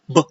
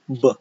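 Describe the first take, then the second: First: The b bursts out with excessive explosive force. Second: The b is released gently without extra force. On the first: The speaker calls it wrong. "we don't want to say b" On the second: The speaker calls it right. "It's only b"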